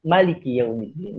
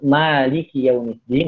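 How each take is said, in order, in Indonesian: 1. Vokal pertama dari Maliki itu pendek. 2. Vokal pertama dari Maliki itu panjang. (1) "yang berarti raja" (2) "dan ini adalah qiraat kita semua, qiraat Imam Asim"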